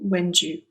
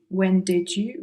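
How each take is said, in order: First: The words are reduced and run together quickly. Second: Each word is pronounced fully and carefully. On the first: "it's reduced to when do you" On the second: "sort of carefully pronouncing when did you send"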